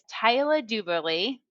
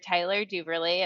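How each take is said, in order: First: The name is said in a New Zealand accent. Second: The name is said in an American accent. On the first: "I appreciate you putting on the Kiwi accent" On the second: "as you might say in America"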